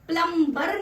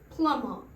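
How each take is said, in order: First: A b sound is heard after the m. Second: No b sound is heard after the m. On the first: The speaker calls it wrong. "प्लम्बर नहीं" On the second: The speaker calls it right. "होता है प्लमर"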